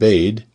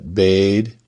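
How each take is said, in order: First: The vowel is held briefly. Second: The vowel is held for a long time.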